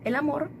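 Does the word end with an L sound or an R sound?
R sound. The word ends with an R sound. "En vez de decir el amor"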